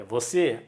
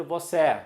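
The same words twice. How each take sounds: First: Said in the usual way. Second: "você" with an open final é; wrong open vowel. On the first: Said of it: "e o timbre". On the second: Shown as a demonstration. Teacher showing what nobody would read, "você" with open final eh. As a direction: end "você" on an open eh, as in café. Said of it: "Ninguém vai ler".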